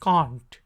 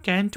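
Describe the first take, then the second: First: Can't with long ah, British accent; British cahnt. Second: Can't with a flat a, American accent; American can't like kent. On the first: Teacher demoing British accent. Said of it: "British accent में हम इसे". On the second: Teacher demoing American accent. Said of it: "American English में हम इसको can't पढ़ेंगे". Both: Shown as a demonstration.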